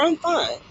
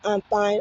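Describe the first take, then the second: First: It sounds genuinely happy and well. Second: It sounds like an automatic, generic reply.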